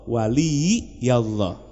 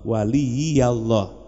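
Both takes have the same delivery.

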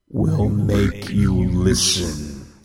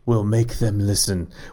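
First: It is said in a scary voice. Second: It is said in a normal voice.

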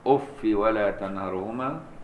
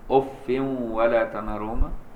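First: The word ends in -i without nunation. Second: The word ends in -in with nunation. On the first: "بالكسر دون تنوين" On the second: "المدنيان وحفص هم اللي بينونوا ويكسروا"

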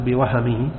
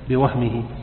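First: A short vowel follows the h sound. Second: No vowel follows the h sound. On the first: It refers to an oversight or mistake. The speaker calls it wrong. "لا تقل بوهمه" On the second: It refers to a notion arising in the mind. The speaker calls it right. "إنما بوهمه"

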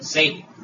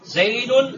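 First: The word ends on a bare final d. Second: The word ends with the nunation sound -un.

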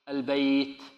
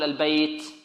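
First: The final t is breathy with no s-like hiss. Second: The final t has an s-like hiss. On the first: The speaker calls it right. "بل لابد من الهمس، لكن الهمس هذا لا ... يكون مع الهمس صوت السين" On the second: The speaker calls it wrong. "لا يأتي الإنسان فيه برائحة السين يقول البيت، خطأ هذا"

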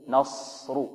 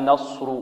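First: The s is said with unrounded lips. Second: The s is said with rounded lips. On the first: The speaker calls it right. "لا نصر نصر" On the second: The speaker calls it wrong. "ولا نضم الشفتين فيها"

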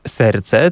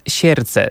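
First: The word is said in today's pronunciation. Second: The word is said in an old-fashioned pronunciation. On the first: This is how the word is said today. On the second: This is how the word was said in the past. "Dawniej mówiono na przykład"

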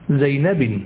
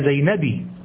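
First: The name ends with the nunation sound 'in'. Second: The name ends with a short 'i' vowel. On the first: "ولا تقول زينب" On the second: "ولا زينبي"

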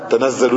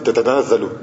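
First: The word begins with a single 'ta' syllable. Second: The word begins with two 'ta' syllables. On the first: "il y a un T qui était enlevé" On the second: "En fait, c'est"

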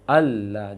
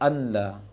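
First: The n merges fully into a doubled l. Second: The n is pronounced clearly before the l. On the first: The speaker calls it right. "Maka bacanya alla" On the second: The speaker calls it wrong. "jangan anla"

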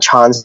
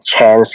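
First: The word is said with a British vowel. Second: The word is said with an Australian vowel. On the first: "我都會講翻chance 咧，即係比較容易啲發音" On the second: "澳洲和紐西蘭講chance 是講chance"

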